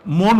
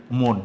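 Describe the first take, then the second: First: মন with a plain open অ, mɔn; মন read the wrong way, open অ. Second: মন said as mon, rounded o; মন with the vowel like o; correct reading. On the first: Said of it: "মন উচ্চারণ করি না". (মন ভুল উচ্চারণ, খোলা অ দিয়ে) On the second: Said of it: "আমরা উচ্চারণ করি কি?". (মন সঠিক উচ্চারণ, মোন) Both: Shown as a demonstration.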